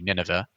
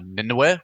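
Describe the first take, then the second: First: The name is said with an English pronunciation. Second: The name is said with an Assyrian pronunciation. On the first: This is how English speakers say it. "the anglicized pronunciation would be" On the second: This is how the speaker's own community says it. "which is how we pronounce it"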